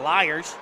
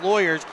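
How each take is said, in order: First: It is said in a Southern drawl, like liars. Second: It is said in a plain, neutral accent.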